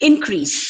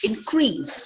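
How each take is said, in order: First: IN-crease, first syllable of "Increase" stressed; noun stress. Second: In-CREASE, second syllable of "increase" stressed; verb stress. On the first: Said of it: "nouns stress on the first syllable". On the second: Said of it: "ಎರಡನೇ syllable ನ stress". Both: Shown as a demonstration.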